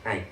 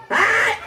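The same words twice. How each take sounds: First: Said in the usual way. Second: High, loud shouted hi with a laugh. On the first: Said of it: "sabihin mo, "Hi". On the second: Pretend. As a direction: belt the greeting out to the kids. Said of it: "Hindi, lakasan mo".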